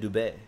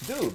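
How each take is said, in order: First: The name is said with a French pronunciation. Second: The name is said with a plain English pronunciation. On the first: This is how it is said in France. "That's how they pronounce it in France" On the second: This is how it is said in Canada. "That's what they say in Canada"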